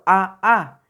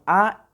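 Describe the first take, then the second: First: The vowel is said twice in a row. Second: The vowel sound is short and plain. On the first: "eso no existe, eso no es así" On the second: "Las simples es únicamente como las que conocemos"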